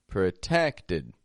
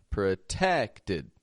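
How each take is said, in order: No difference in how they are said.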